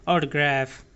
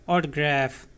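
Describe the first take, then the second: No difference in how they are said.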